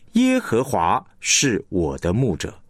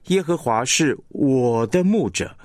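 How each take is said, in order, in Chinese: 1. 重音落在耶和华上。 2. 重音落在我上。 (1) "你会强调耶和华" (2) "你会听出来这个我是被强化了"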